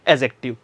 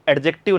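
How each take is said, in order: First: The d sound is silent before the j. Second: The d sound is pronounced before the j. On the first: The speaker calls it right. "डी प्रोनाउंशिएट नहीं किया जाता है" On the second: The speaker calls it wrong. "एडजेक्टिव नहीं"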